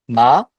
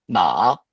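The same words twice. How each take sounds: First: The pitch rises from mid to high. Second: The pitch dips low, then rises again. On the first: "le second ton où ça va monter" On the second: "faut descendre de deux à un et après, faut remonter"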